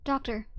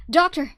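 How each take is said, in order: First: Said in the usual way. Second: Doctor! yelled much higher and louder; urgent shout over the radio. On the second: Acted. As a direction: call out Doctor! to get his attention. Calling out over comms.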